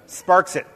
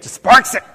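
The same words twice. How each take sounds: First: Said in the usual way. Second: Much louder, higher, with a lift on "sparks"; excited. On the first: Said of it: "Sparks joy". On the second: Shown as a demonstration. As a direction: burst out "Just sparks it" with delight. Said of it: "Ooh, I felt a spark of joy".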